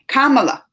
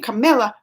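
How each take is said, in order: First: The name ends with an 'ala' sound. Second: The name ends with an 'illa' sound. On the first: The speaker calls it right. "I gotta say it right" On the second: The speaker calls it wrong. "which I know Camilla's wrong because there ain't a illa at the end"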